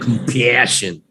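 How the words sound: It is said in a Chicago-style accent.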